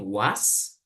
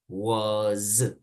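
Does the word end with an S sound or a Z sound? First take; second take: S sound; Z sound. First: The word ends with a hissing S sound. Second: The word ends with a buzzing Z sound. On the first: The speaker calls it wrong. "en vez de decir was" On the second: The speaker calls it right. "En realidad es más como una Z al terminar"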